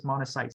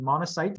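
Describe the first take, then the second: First: "monocytes" ending in an audible TS; sounded final S. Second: "monocyte" ending on T with no S after it; no final S. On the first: Teacher contrasts endings, "monocytes" with its final S sounded. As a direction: add a clear S to the end of "monocytes". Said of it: "it have the S at the end". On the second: Teacher contrasts endings, "monocyte" without the final S. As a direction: stop "monocyte" at the T. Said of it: "they're different between". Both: Shown as a demonstration.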